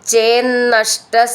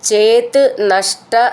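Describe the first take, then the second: First: The two words are joined into one. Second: The two words are said separately.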